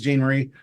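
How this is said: It is said with an American accent.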